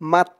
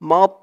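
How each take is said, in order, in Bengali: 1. t টি পাতলা, মুখ ভরা নেই। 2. t টি মোটা, মুখ ভরপুর লাগে। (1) "মিম দিয়ে যদি তাকে ধরতো তাহলে উচ্চারণ হতো" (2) "মুখটা একটু ভরপুর হয়ে যাবে এমন মনে হবে"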